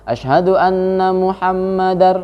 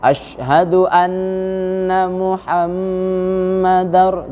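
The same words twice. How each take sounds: First: The double n is short and flat, without nasal hold. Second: The double n is held long with a nasal hum. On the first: The speaker calls it wrong. "Jangan ... Lurus aja gitu" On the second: The speaker calls it right. "Kalau bisa kita maksimalkan"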